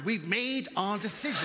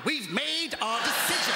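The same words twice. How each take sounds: First: Slow stubborn insistence; stubborn Brit repeating the verdict. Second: Slow stubborn refrain, pitched higher; a hammed-up defiant Brit; stubborn, rising. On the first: Retold or imitated. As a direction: dig in and refuse to budge, slowly. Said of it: "the stubborn Britishness of that". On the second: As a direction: insist even as doom nears, higher and slower. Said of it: "We could all die".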